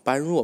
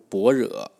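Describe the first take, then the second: First: It is read as bān ruò. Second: It is read as bō rě. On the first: The speaker calls it wrong. "我们有时候会读成" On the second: The speaker calls it right. "其实是读正字是读"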